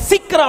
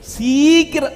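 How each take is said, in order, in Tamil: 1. வார்த்தை வேகமாகவும் அழுத்தமாகவும் சொல்லப்படுகிறது. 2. வார்த்தை மெதுவாக இழுத்துச் சொல்லப்படுகிறது. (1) "சீக்கிரம் அப்படி சொல்லணும்" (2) "சொல்றது லேட் ஆயிடும்"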